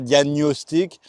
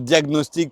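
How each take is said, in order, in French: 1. Le 'gn' se prononce comme un seul son 'ny'. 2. Le 'gn' se prononce comme un g et un n séparés.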